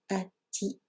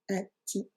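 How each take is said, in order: First: The ending is 'a' followed by 'ti'. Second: The ending is 'a' followed by 'ti'.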